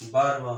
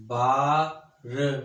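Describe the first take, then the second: First: Said in the usual way. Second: बारवा stretched very slowly, each sound held; slow drawn out. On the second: Shown as a demonstration. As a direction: draw बारवा out slowly for the students. (बारवा को धीरे धीरे खींचकर) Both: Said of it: "जैसे देखें ना".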